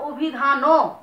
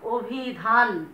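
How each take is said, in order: First: The word ends with an added o vowel. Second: The word ends on a bare n sound. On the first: "নয়ের সাথে একটা ও চলে আসতো" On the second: "নয়ের সাথে কিন্তু কোনো অ উচ্চারণ করছি না"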